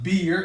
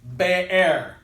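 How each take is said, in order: First: It is said like the English word beer. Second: It is said in a Hebrew style. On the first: The speaker calls it wrong. "It's not beer" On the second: The speaker calls it right.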